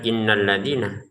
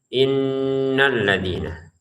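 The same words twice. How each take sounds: First: The nasal in inna is cut short. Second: The nasal in inna is held two counts. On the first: The speaker calls it wrong. "jangan sekedar" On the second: The speaker calls it right. "tapi innalladzina. Dan ditahannya dua harokat"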